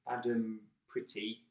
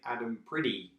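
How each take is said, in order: First: The middle consonant of Pretty is a clear t. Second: The middle consonant of Pretty sounds like d. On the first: "she doesn't say Adam Pretty" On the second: "she will say Adam Pretty ... she has this D sound"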